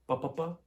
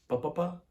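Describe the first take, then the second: Both takes have the same delivery.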